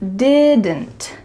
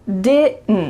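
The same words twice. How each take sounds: First: Every sound in the word is pronounced clearly. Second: The word is reduced, with sounds cut short. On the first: "this is the clear pronunciation" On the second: "When native speakers are speaking quickly"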